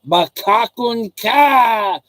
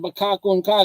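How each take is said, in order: First: "Bakakun ka" higher and very slow, with a long KA; drawn-out teasing. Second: Said in the usual way. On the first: Shown as a demonstration. Showing how to call Filipinos liar and get laughs, exaggerated teasing "Bakakun ka". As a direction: exaggerate and stretch every beat of "Bakakun ka". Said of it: "like that". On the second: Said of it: "if I just started off saying".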